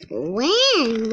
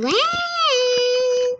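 First: Said in the usual way. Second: Much higher, pleading repeat of When; impatient child. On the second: Acted. Young brother begs to know when Mulan comes, impatient. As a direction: push When up high like an eager kid.

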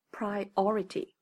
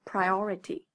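First: Priority said with the stress on "o", pri-O-rity. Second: Priority said alone with the stress on "o", pri-O-rity; teacher saying Priority alone for listeners to read along. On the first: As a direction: lean on the "o" in priority. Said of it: "重音呢，在o上面". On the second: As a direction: say Priority slowly for the class to repeat. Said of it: "大家先跟我读一遍". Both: Shown as a demonstration.

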